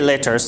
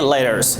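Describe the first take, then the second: First: It is said with a British accent. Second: It is said with an American accent. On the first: "in British we say letters" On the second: "In American we say letters"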